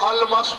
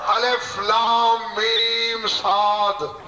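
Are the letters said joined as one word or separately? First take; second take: joined; separately. First: The letters are run together as one word. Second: Each letter name is said separately. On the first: The speaker calls it wrong. "इसे जो अलमस पढ़ेगा काफिर" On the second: The speaker calls it right. "अलग अलग पढ़ना है"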